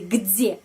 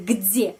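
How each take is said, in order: First: The d is softened before the vowel. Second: The same.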